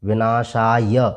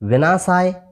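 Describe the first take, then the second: First: The word ends with a short final vowel sounded. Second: The word ends on a consonant without final vowel. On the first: The speaker calls it right. "य में जो अ मिला हुआ है उसका भी हमें उच्चारण करना है" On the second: The speaker calls it wrong. "अब हम साधारणतः ऐसे शब्दों को विनाशाय ऐसे पढ़ देते हैं"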